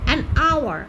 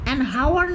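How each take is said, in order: First: Hour starts with a vowel, no h sound. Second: Hour starts with a clear h sound. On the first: The speaker calls it right. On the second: The speaker calls it wrong. "An হাওয়ার নয় তো"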